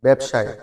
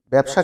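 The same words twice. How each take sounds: First: "ব্যবসায়" said with a final e-sound; correct form. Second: "ব্যবসা" given as the wrong form, ending on a. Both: Shown as a demonstration. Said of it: "ব্যবসা কিন্তু না".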